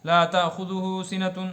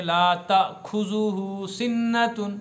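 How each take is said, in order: First: Slow, "تأخذہ" said with a guttural خ and "سنتن" with a clear ending; careful corrected recital, every letter clean; correct reading. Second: Very slow, "تأخذہ" said with a kh sound like کھ; drawn out like the usual careless recital; common wrong reading. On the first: Preacher giving the correct recital after the wrong one, slow and precise. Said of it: "یہ لفظ غلط ہے". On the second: Preacher showing the congregation's wrong recital, slowly drawn out. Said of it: "پڑھتے ہیں نا عام طور پر". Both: Shown as a demonstration.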